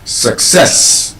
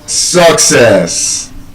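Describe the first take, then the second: First: The stress is on the second syllable. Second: The stress is on the first syllable. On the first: The speaker calls it right. "the correct pronunciation of that word is actually success" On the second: The speaker calls it wrong. "Normally we say what?"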